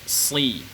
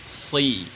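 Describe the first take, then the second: No difference in how they are said.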